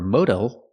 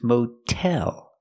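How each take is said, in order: First: The middle consonant is a quick D-like sound. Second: The middle consonant is a clear T sound. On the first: The speaker calls it wrong. "not modal" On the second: The speaker calls it right. "that's why we keep the real T sound"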